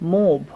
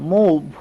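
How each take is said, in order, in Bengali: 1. স্বরধ্বনিটি oo-এর মতো শোনায়। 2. স্বরধ্বনিটি oo-এর মতো শোনায়।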